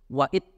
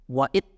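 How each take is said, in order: First: The final consonant is cut off as a stop. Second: The same.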